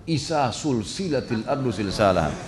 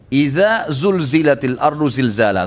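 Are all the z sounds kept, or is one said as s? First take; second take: s sound; kept. First: A z sound is replaced by an s sound. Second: All the z sounds are kept as z. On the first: The earth is linked together like a chain. The speaker calls it wrong. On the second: The earth is shaken violently. The speaker calls it right.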